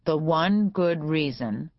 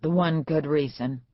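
First: One stretched slowly with a rise; slow model phrase. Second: Said in the usual way. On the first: A narrator's reading. Judge dictating to the lawyer, slow and deliberate. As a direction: dictate The one good reason word by word. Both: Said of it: "Repeat after me".

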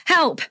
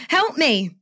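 First: Sharp, high cry for help; calling for help. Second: High, pleading cry of help me; calling for help. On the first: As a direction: shout it out to a passing car. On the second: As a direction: beg the driver to stop. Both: Acted. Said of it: "made an instant decision to call out".

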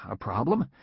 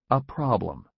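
First: "A problem?" asked with a rising tune, dazed; stunned question. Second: "A problem." read as a calm title with falling tune; chapter title. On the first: Employee echoing "A problem?" in stunned surprise. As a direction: echo "A problem?" in disbelief, rising. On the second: Narrator announcing the chapter title "A problem." evenly. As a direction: announce "A problem." flatly as a heading. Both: A narrator's reading.

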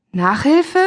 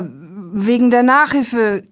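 First: "Nachhilfe?" asked with sharp rising tune; rising question on Nachhilfe. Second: "Nachhilfe" said slowly with falling end; falling tune on Nachhilfe. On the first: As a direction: throw "Nachhilfe?" back as a surprised question. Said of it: "wirkte auch ziemlich verdutzt". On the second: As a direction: let "Nachhilfe" drop at the end. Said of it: "stotterte er". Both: A narrator's reading.

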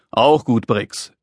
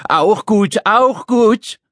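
First: Said in the usual way. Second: High mocking squawk of a little man; screeching echo. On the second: Little man echoes Dad's answer, screeching. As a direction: squawk it back in outrage. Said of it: "kreischte der Kleine".

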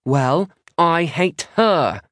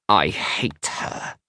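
First: High, louder retort, drawn out; countering. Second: Put-on slow, small child's quaver; small, trembly voice. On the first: Maisie answering Isla's insult, countering. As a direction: throw it back higher and harder. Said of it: "Maisie counters". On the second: Scowling Isla about her sister, small trembly voice. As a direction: say it tiny and trembling. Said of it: "in a small, trembly voice". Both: A narrator's reading.

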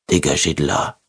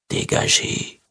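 First: Thick-tongued, feeble mumble; a slurred, powerless order; slurred weak voice. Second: Breathless whispered order; barely a whisper, drained. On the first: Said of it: "d'une voix pâteuse, bien trop faible". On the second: Weak repeated order to insects. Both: Acted.

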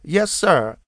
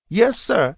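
First: Fearful repeat. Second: Put-on high, frightened little-boy answer; fearful. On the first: Boy repeating his answer to the officer, fearfully. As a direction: repeat it, scared and small. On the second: Terrified small boy answering the armed officer, fearfully. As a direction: blurt it out scared stiff. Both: A narrator's reading. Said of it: "Anthony replied fearfully".

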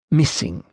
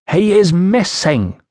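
First: Said in the usual way. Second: Put-on high, slow "missing" with foreign vowels, Iceni accent. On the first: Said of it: "he repeated". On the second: A narrator's reading. Woman reports her husband to the official, Iceni accent. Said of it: "trouble following your accent".

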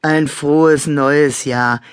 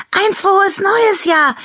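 First: Slow, gruff growl; grumbled, drawn-out festive wish; growled greeting. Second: Very high, loud festive squeal; piercingly high cheering call; excited shout. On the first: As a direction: growl the good wish slowly. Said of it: "knurrte Leo". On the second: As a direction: shout the wish with glee. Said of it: "rief Annabella Klimperauge". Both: A narrator's reading.

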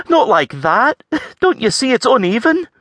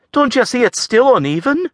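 First: High, fussy lass voice; critical Scots lass. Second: High, blurting lass voice; blurted Scots complaint. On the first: Avril criticising the farrier's hoof work, fussy. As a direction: nitpick his work, lilting and high. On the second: Avril complaining again, blurting it out. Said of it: "Avril blurted". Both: A narrator's reading.

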